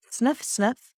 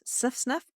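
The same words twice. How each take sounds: First: Two short sharp sniffs through the nose; two quick sniffs in. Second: Quieter quick double sniff, rising; two quick sniffs. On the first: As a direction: demonstrate the double sniff inhale. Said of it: "And she said". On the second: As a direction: show the sniff sniff breath softly. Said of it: "Breathing in through the nose". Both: Shown as a demonstration.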